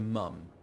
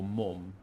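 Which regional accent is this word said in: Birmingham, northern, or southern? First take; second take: southern; northern. First: It is said in a southern English accent. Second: It is said in a northern English accent. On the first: "as opposed to mum in the south" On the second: "or mum in the north"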